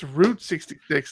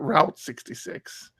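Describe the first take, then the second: First: Route is said to rhyme with boot. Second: Route is said to rhyme with out. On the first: It names the highway from the song. The speaker calls it right. "My wife had to remind me it's it's Route sixty-six" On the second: It sounds like the computer networking term. The speaker calls it wrong. "not Route sixty-six. I kept calling it Route because you know I'm into computers"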